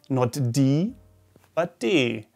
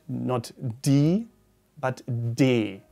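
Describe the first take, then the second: Both takes have the same delivery.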